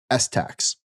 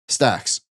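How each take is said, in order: First: It is split into a letter S and 'tax'. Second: It is said as one word, 'stacks'. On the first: The speaker calls it wrong. "I'm wrong" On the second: The speaker calls it right. "You should call it stacks"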